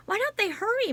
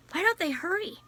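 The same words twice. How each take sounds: First: Repeated even higher and a touch more urgent, falling at the end; more anxious. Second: A higher, worried first asking with a rise at the end; higher anxious question rising at the end. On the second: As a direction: ask it fretting, higher, with hurry still hanging. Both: A narrator's reading. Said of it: "muttered Jem".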